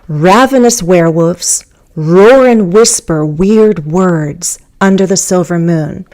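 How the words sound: The first pause comes after 'werewolves'. "the subject and then the verbs with the object, and again the prepositional phrase at the end"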